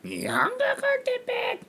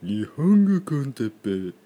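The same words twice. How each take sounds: First: It is said in a high voice. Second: It is said in a low voice.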